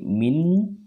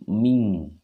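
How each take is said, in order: First: The nasal ends with a clear n sound. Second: The nasal ends with an ng sound. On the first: The following letter is pronounced near the tip of the tongue. "kalau akrab dia suaranya n" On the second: The following letter is pronounced far back in the mouth. "kalau abad dia suaranya eng"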